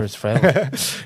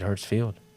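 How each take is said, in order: First: The second syllable has a short 'e' vowel. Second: The second syllable has a long 'ee' vowel. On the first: The speaker calls it right. "Hertzfeld, right?" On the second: The speaker calls it wrong. "I said it wrong. I said Hertzfield"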